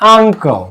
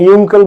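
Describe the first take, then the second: First: The word begins with a plain 'uh' vowel. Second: The word begins with a 'you' sound. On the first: The speaker calls it right. "আ উচ্চারিত হয়েছে" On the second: The speaker calls it wrong. "ইউঙ্কেল না"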